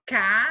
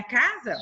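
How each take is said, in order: First: CASA in two beats, ca and za, with a gap; two separated syllables in "casa". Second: Said in the usual way. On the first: Shown as a demonstration. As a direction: count out "casa" one syllable at a time. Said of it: "Duas sílabas". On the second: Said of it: "Quantas sílabas tem a casa?".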